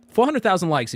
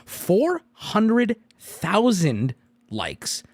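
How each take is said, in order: First: Said in the usual way. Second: Slow dramatic emphasis. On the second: Shown as a demonstration.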